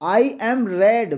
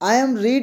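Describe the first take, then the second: First: The word read has a short e vowel. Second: The word read has a long ee vowel. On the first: The speaker calls it right. "वैसे लिखते रीड ही हैं लेकिन बोलते क्या है, रेड" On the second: The speaker calls it wrong. "यहां पे मैंने एक चीज गलत प्रोनाउंस किया"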